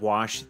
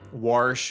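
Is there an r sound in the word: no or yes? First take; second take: no; yes. First: The word is said without an r sound. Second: The word is said with an r sound. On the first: The speaker calls it right. "instead of wash" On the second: The speaker calls it wrong. "Warsh instead of wash"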